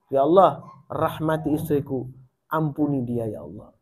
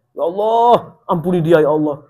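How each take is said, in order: First: Softer, murmured prayer to God; gentle late-night prayer said softly; moderate night prayer. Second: Imitating a husband shouting his prayer; mock shouted prayer. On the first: Retold or imitated. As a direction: pray half aloud so the sleeping wife barely hears. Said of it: "Sengaja agak sedikit keras". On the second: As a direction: yell the prayer so she has to hear it. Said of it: "Mau didengar tapi teriak, keras banget suaranya".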